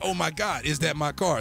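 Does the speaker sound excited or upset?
excited. It sounds excited and happy.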